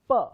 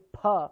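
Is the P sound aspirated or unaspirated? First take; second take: unaspirated; aspirated. First: The P is said without a puff of air. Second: The P is said with a puff of air. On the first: The speaker calls it wrong. "try saying it the wrong way first" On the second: The speaker calls it right. "which will be with the gush of air"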